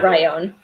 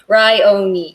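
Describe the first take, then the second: First: The name ends without an 'ee' sound. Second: The name ends with an 'ee' sound. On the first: The speaker calls it wrong. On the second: The speaker calls it right. "yep, that's how you pronounce it"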